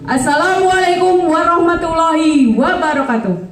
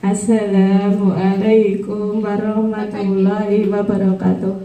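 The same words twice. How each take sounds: First: The greeting is said firmly and loudly. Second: The greeting is said weakly and sleepily. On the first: The speaker calls it right. "harus ada ketegasan dalam pembawaan" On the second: The speaker calls it wrong. "Ngantuk nggak?"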